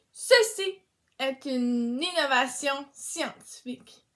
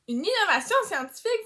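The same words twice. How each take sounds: First: Said in the usual way. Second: Higher, fast, rising disbelief; surprised echo. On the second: Acted. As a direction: repeat it as if amazed. Echo repeated as a question.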